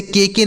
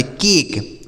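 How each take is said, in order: First: के के split into two separate syllables; wrong reading. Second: केक said as one syllable, final e silent; right pronunciation. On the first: Teacher showing students the wrong reading, के के said as two syllables. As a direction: read it wrongly as के के, two beats. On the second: Teacher showing students the correct reading, केक as one syllable. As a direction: say केक in one clipped beat. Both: Shown as a demonstration. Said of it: "इसे के के नहीं पढ़ेंगे".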